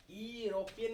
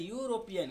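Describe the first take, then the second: First: यूरोपियन said as "ee-ropian"; wrong pronunciation. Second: यूरोपियन said as "yoo-ropian"; correct pronunciation. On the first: Teacher telling students not to read यूरोपियन so, wrong pronunciation. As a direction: start यूरोपियन on a bare "ee", dropping the y. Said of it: "इसको यूरोपियन नहीं पढ़ते". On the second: Teacher showing how यूरोपियन is read, correct pronunciation. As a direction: start यूरोपियन on a clear "yoo" glide. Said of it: "इसको पढ़ता है यूरोपियन". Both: Shown as a demonstration.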